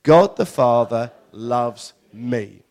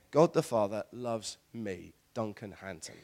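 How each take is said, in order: First: Loud, very slow unison declaration; measured, loud group affirmation; declared together. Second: Understated personal affirmation; quiet declaration. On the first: Real, not acted. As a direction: proclaim it loudly and slowly with the congregation. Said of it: "we'll say it together". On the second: Shown as a demonstration. Preacher models a personal declaration.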